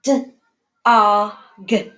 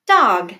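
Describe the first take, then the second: First: D-o-g in three separate sounds; sounded out. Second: Said in the usual way. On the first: Shown as a demonstration. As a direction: sound out d, o, g one at a time. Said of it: "to do the first sound green, middle sound yellow".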